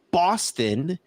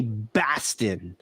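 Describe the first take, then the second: First: Said in the usual way. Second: Slow Boston drawl of Baston; Boston accent. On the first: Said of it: "if you go to". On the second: Shown as a demonstration. Host demoing the Boston accent on Baston. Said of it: "they say Baston".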